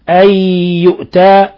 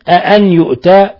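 First: It opens with a single plain hamza. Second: It opens with a hamza plus a softened second hamza. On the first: It is stated as a declaration. "على الإخبار" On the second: It is asked as a question. "بالاستفهام مع تسهيل الهمزة الثانية"

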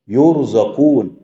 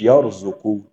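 First: The word is said with vowels u then a. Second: The word is said with vowels a then u. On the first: They are given provision by another. The speaker calls it right. "يرزقون مش يرزقون" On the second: They give provision to others. The speaker calls it wrong. "مش يرزقون"

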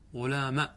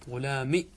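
First: The word ends in a short a vowel. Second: The word ends in a short i vowel. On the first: "احذف الياء بعد قلبها ألفا وإبقاء الفتحة" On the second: "كسرة بدون ياء"

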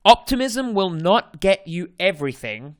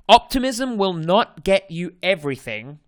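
First: It is spoken in an Australian accent. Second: It is spoken in an Australian accent.

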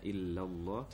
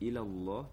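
First: The L sound is doubled and held long. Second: The L sound is single and short. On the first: It means except God. The speaker calls it right. "mestinya illallah" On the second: It means to God. The speaker calls it wrong. "menjadi ilallah, berarti berubah fatal"

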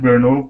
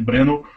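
First: The name is said with an American English pronunciation. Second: The name is said with a local Czech pronunciation. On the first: This is how North Americans say it. "o norte-americano chama de Brno" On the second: This is how the locals say it. "o pessoal de lá chama de Brno"

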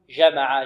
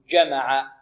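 First: The first consonant is soft and continuous. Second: The first consonant is a full stop. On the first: The speaker calls it wrong. "لا نقول جمع" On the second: The speaker calls it right. "بل نقول جمع"

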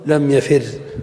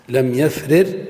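First: The two identical consonants are merged into one. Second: The two identical consonants are pronounced separately.

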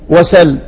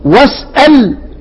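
First: The glottal stop is dropped and merged away. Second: The glottal stop is fully pronounced. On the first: This form makes the word easier to say. "النقل للتخفيف" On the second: This is the original, full form. "والتحقيق هو الاصل"

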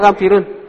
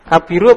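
First: The word ends in an un sound. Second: The word ends in a plain u vowel. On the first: The speaker calls it right. "Kabirun, mengikuti" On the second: The speaker calls it wrong. "Kabiru apa kabirun?"

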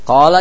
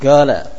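First: The word begins with a deep q sound. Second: The word begins with a hard g sound. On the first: This is the standard recitation. The speaker calls it right. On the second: This is how the word is commonly said in Yemen. The speaker calls it wrong.

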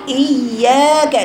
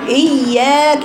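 No difference in how they are said.

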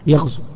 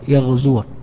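First: The word ends in a short u sound. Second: The word ends in a long u sound. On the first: The verb is in the jussive case. "تحذف هذه الواو" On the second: The verb is in the indicative case. "الواو ما تظهر، الفتحة تظهر"

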